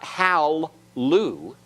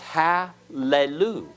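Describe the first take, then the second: First: No vowel sounds between the two L sounds. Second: A short vowel sounds between the two L sounds. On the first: The speaker calls it wrong. "it's not hal-lu" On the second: The speaker calls it right. "This schwa will be vocal"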